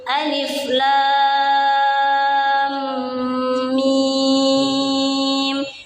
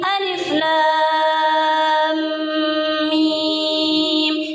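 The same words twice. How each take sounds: First: It is recited slowly. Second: It is recited quickly. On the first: "Itu lambat" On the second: "Yang cepat"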